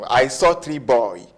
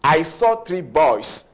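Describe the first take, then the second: First: Said in the usual way. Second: Put-on slow, deliberate "I saw three boys" with the S clear; slow corrected sentence. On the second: Shown as a demonstration. Teacher modelling the correct plural for students, slow and clear. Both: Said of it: "No, it's wrong".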